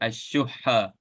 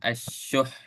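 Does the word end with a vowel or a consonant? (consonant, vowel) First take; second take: vowel; consonant. First: The word ends with a full final vowel. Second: The word ends on a strong final h. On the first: The word is read normally, without stopping. "that's if we want to pronounce it normally" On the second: The reader stops on this word. "if you want to stop ... put a little bit of strength in that ha sound"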